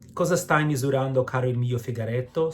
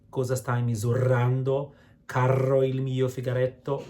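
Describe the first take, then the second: First: The R sounds are single light taps. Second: The R sounds are overpronounced as double rolls. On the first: The speaker calls it right. "One R, it's between vowels" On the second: The speaker calls it wrong. "So not"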